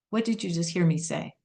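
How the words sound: It sounds like a genuine, sincere question.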